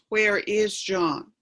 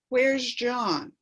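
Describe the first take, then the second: First: Each word is said separately and emphatically. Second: The words run together in a relaxed way.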